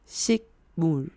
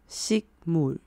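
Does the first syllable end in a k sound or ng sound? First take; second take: k; k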